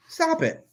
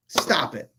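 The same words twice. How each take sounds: First: Exasperated stop it. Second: Said in the usual way. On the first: Retold or imitated. Fed up with critics, pleading stop it much higher.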